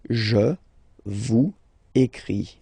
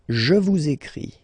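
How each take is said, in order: First: Vous and écris are said without a linking sound. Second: Vous links into écris with a z sound.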